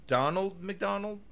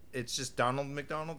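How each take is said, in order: First: "Donald McDonald" drawn out slowly, rising like a question; slow puzzled "Donald McDonald" with a questioning lift. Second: Said in the usual way. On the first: Shown as a demonstration.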